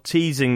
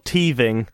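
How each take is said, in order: First: The middle consonant is a clear s sound. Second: The middle consonant is lisped into a th sound. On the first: "I'd just say" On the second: "because of my lisp, it just said came out as"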